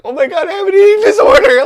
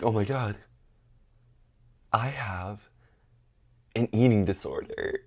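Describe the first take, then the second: First: Very high, loud mock-panicked squeal; hammed-up shrieking panic; freaking out. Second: Quiet, halting mock revelation; hushed dramatic self-diagnosis; grave realization. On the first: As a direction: squeal it in exaggerated alarm. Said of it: "I'm freaking out". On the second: Acted grave self-diagnosis, before panicked repeat.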